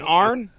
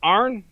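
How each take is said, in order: No difference in how they are said.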